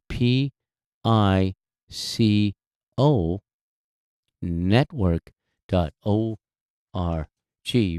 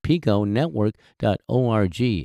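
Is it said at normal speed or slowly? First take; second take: slowly; normal. First: It is said slowly. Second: It is said at normal speed.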